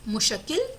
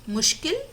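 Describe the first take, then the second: Both takes have the same delivery.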